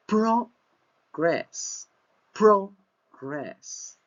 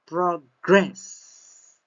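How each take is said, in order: First: Progress with high, strong PRO, syllables split; noun stress on PROGRESS. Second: Progress with loud GRESS; verb stress on PROGRESS. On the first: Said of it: "stress is in the first syllable". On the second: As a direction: punch the second syllable of Progress. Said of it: "second syllable, we have the stress". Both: Shown as a demonstration.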